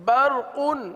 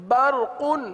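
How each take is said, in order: The two takes are said the same way.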